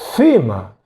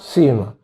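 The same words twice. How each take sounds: First: The word begins with a 'th' sound. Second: The word begins with a plain 's' sound. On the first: This is how it is said in Spain. "como si fuera nuestra Z" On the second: This is how it is said in Peru. "La pronunciamos igual"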